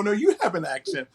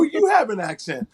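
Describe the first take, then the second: First: "you" pushed higher, tossing the blame back; mock retort leaning on "you"; stress on YOU. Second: "have" lifted higher, firm and insistent; the locals insist, leaning on "have"; stress on HAVE. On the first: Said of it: "I go". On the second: Retold or imitated. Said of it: "They go".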